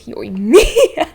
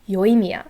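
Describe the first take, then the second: First: The third syllable gets a strong punch. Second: All syllables are flat with no punch. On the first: The speaker calls it wrong. "her name kept being pronounced Yoimiya. Like" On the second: The speaker calls it right. "Her name is very flat. Again, no no punch in the third syllable"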